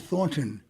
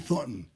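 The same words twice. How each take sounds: First: The middle T is clearly pronounced. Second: The middle T is dropped. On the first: "they don't say Thornton" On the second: "They say Thornton. ... they don't get the T in there"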